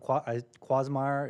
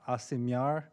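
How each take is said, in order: First: The name begins with a 'kw' sound. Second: The name begins with a vowel sound. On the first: The speaker calls it wrong. "I've been told I pronounced it incorrectly" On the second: The speaker calls it right. "it's supposed to be pronounced"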